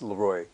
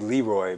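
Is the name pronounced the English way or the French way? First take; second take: French; English. First: The name is said the French way. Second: The name is said the usual English way. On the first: The speaker calls it right. "but it's Leroy. ... it's from French" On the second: The speaker calls it wrong. "a lot of people, they want to say Leroy"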